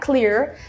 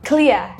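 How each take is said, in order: First: It is said in an American accent. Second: It is said in a British accent. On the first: "when the people of America say er, it's a very clear er" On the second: "when the British people say, it'll be clear"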